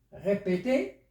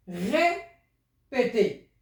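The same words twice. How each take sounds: First: Said in the usual way. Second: Very slow, each syllable drawn out; slow demo. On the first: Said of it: "teacher repeats word". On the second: Shown as a demonstration. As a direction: stretch out "Répété" slowly for the pupils. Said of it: "teacher demonstrating pronunciation".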